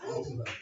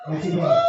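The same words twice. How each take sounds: First: Soft, small falsetto echo; a quiet squeaky aside; hushed mock voice; quiet high repeat. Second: A sudden squeaky falsetto; squeaky mock voice; high squeak. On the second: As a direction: pop way up high and loud. Mock answer to himself.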